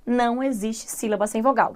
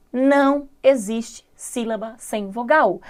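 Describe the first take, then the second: First: Said in the usual way. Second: Slow, word by word, with pauses; measured, spaced-out teacher's emphasis; slow emphatic rule. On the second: Real, not acted. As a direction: spell out the rule deliberately, one word at a time. Stating the key rule for emphasis.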